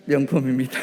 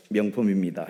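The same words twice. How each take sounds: First: Said out clearly and louder for the congregation to repeat; louder call-and-response demo. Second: Said in the usual way. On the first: Shown as a demonstration. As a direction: model the line firmly and louder. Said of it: "시작". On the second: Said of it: "우리 옆에 사람 쳐다보시고요".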